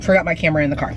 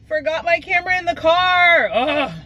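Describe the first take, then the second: First: Said in the usual way. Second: High, whiny self-scolding; exasperated. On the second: Real, not acted. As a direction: groan it out at yourself. Repeats it, exasperated, after a laugh.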